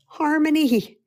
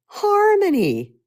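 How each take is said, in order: First: Higher and bright, a bit louder; uplifted word. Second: Sung-out high, slow and louder; soaring harmony. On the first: Speaker answering her own question, lifted. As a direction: lift the word up. First take, plain-ish. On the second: Speaker celebrating the answer to her own question, sung out high. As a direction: let the word float up joyfully. Repeated, higher and drawn out. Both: Real, not acted.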